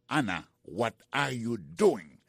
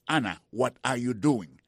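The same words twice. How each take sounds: First: Slow teaching repeat. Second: Said in the usual way. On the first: Shown as a demonstration. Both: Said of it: "The lesson of today starts with".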